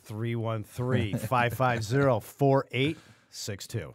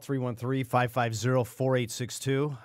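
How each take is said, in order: First: The number is said more slowly. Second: The number is said at normal speed.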